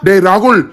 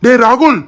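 First: Scolding call. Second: Calling out. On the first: Scolding friend who drank all. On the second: Calling out to fallen friend. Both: Acted.

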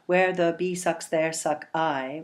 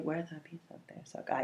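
First: Slow, beat-by-beat scansion with each syllable weighted; scanned for syllables. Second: A soft airy whisper of the line. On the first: Teacher scanning the line for students, slow and deliberate. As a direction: count the beats of "Where the bee sucks, there suck I" slowly. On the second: Teacher repeating the song line to students in a hush. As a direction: breathe "Where the bee sucks, there suck I" almost silently. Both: Shown as a demonstration. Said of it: "how many, um, syllables there are".

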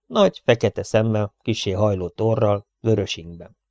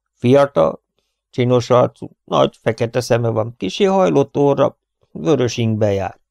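First: Said in the usual way. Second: Character describing. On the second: A narrator's reading. Rover describes the stranger. (a szereplő hangján, élénken)

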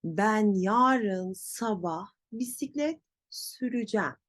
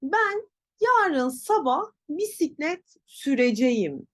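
First: Süreceğim as sü-rü-jem; spoken contraction. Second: Süreceğim in full, sü-re-je-yim, higher; written form. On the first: Teacher corrects, süreceğim as sürücem. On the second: Teacher demonstrates wrong way, full süreceğim. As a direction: pitch up, read süreceğim as spelt. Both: Shown as a demonstration. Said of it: "böyle değil".

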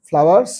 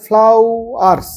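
First: Said in the usual way. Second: flowers said slowly as one unbroken word; teacher drawing out flowers in one piece; slow whole word. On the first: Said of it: "flowers, F L O W E R S". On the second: Shown as a demonstration. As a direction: stretch out flowers without splitting syllables. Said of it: "syllable ভাগ করে না".

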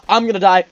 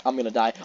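First: Louder, higher panic; gamer's panicked yell. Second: Said in the usual way. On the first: Real, not acted. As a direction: shout it in alarm.

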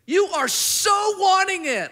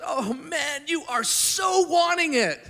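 First: Much higher, louder, slowed cry; fervent shout. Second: Much higher and louder, pleading affection; moved, fervent. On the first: Jesus crying out his longing to the young man, loud and slow. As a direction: cry it out with love. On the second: Jesus longing over the young man, high and fervent. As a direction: ache with longing for him. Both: Retold or imitated. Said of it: "And Jesus looks and goes".

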